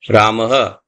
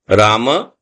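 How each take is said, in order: First: It ends with a breathy h and echo vowel. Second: It ends with a short a vowel. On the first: "Ramaha, which is the Visarg" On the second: "if the ma is full, then you have to say Rama"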